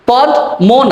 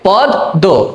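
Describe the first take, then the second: First: The second syllable starts with an m sound. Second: The d sound is doubled; no m is heard. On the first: The speaker calls it wrong. "পদ মো না" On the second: The speaker calls it right. "দটা double হয়ে যাবে"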